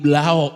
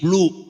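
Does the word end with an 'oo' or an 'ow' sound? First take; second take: ow; oo. First: The word ends with an 'ow' sound. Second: The word ends with an 'oo' sound. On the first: The speaker calls it wrong. "Ngapa bilang ngeblau?" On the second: The speaker calls it right. "jangan bilang blau. Pok beli blue"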